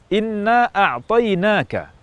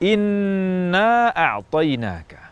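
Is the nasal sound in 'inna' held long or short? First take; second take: short; long. First: The nasal n sound is held only briefly. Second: The nasal n sound is held for longer. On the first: The speaker calls it wrong. "digunakan kurang lama" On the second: The speaker calls it right.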